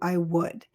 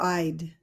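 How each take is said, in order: First: Both words are said in full. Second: The two words are contracted into one syllable.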